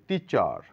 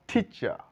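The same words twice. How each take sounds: First: The final r sound is pronounced. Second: The final r sound is silent. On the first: The speaker calls it wrong. "টিচার বলে থাকে" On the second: The speaker calls it right. "শেষে যদি আর থাকে তাহলে সেই আর এর উচ্চারণ হয় না"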